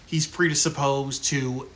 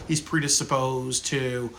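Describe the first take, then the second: No difference in how they are said.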